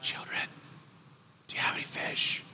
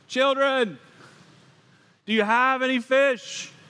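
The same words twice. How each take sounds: First: It is said at a quiet, normal volume. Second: It is yelled loudly across a distance.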